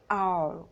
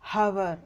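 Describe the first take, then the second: First: The word starts with a vowel sound. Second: The word starts with an h sound. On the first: The speaker calls it right. "We should pronounce this as R" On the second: The speaker calls it wrong. "அப்படின்னு நம்ம சொல்லக்கூடாது"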